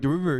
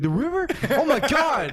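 First: Said in the usual way. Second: High, incredulous echo of the answer; pitched way up in amazement; amazed kid. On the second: Retold or imitated. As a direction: react like an astonished kid. Kid's amazed reply, acted.

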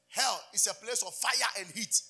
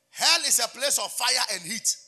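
First: Said in the usual way. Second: Slow, loud, driving declaration; preaching at full force. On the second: Acted. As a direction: proclaim it like a warning. Repeats the point louder.

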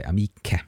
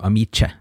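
First: "amiche" said with a hard k, a-MEE-ke; hard k sound. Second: "amice" said with a soft c, a-MEE-che; wrong soft c. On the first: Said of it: "So you have to say amiche". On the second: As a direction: give "amice" the soft ch sound before e. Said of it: "to avoid it changing into amice". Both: Shown as a demonstration.

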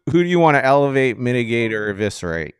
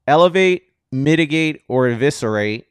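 First: Said in the usual way. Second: "elevate, mitigate, or eviscerate" punched loud and high, announcer-style; segment title announced. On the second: Shown as a demonstration. Host launching the segment name, loud announcer punch. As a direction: hit "elevate" big like a show segment title. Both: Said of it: "a segment that Jesse coined".

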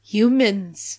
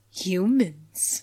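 First: Louder, grave one-word reveal; dramatic reveal. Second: Slow, dramatic one-word reveal. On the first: Fan quoting Zach's line as a gif moment, with a grave, dramatic voice. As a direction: deliver it like a movie trailer line. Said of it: "Just him saying". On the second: Podcaster reenacting Zach's big reveal about the bite marks, in a slow dramatic voice. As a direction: turn slowly and drop it like a movie line. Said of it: "Zach slowly turns, and then he goes". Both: Retold or imitated.

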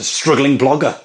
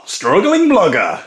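First: Said in the usual way. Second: Loud, high, drawn-out announcer shout; mock title announcement. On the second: Host announcing made-up ASMR show, mock fanfare voice. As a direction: blare the title slowly with rising flourish.

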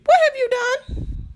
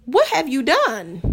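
First: High, slow, shocked squeal; shocked shriek. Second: Said in the usual way. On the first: Acted. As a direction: gasp it out in disbelief. Question repeated, shrieked high.

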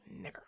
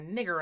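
First: Imitated low mutter, much softer; retold slur murmured under the breath. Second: Said in the usual way. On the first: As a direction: drop it to a near-inaudible mutter. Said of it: "under her voice". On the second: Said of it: "She's just like".

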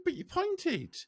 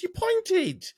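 First: Indignant protest. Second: Higher, louder insistence on "pointed"; pointed accusation. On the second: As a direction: hammer home "You pointed" as an accusation. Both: Retold or imitated. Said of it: "I said".

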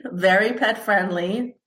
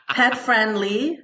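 First: Said in the usual way. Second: Laughing through the words. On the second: Real, not acted. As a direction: say it while giggling. Laughing while listing traits.

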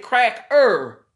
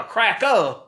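First: Cracker with a drawn-out, hard ER at the end; full -er ending. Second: Cracker ending in a loud open UH, no R. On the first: Setting up a word swap for listeners, full -er ending. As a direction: sound out the ER in cracker, loudly. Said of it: "take the E R off of it". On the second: Showing the altered word to listeners, -a ending. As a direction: drop the R from cracker, end on AH. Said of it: "put an A on it". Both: Shown as a demonstration.

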